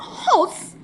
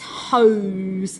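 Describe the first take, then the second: First: The vowel is a short o sound. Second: The vowel is a long o sound. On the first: The speaker calls it wrong. "it's not hos, is it?" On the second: The speaker calls it right. "It's hose"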